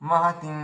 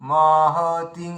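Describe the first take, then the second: First: Only the 'ti' vowel is long. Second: Another vowel besides 'ti' is also lengthened. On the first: The speaker calls it right. "মানে তয় দীর্ঘিটাই দীর্ঘ হবে" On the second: The speaker calls it wrong. "মাহাতিং এভাবে নয়"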